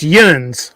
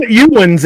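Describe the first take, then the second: First: "yuns" squeezed into one syllable; the local one-beat "yuns"; corrected "yuns". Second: "youans" broken into two syllables, you-uns; wrong "youans". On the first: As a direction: say "yuns" as one run-together syllable, falling at the end. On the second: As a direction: say "youans" spelled out as you-ans, pitched up. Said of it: "It's not". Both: Shown as a demonstration.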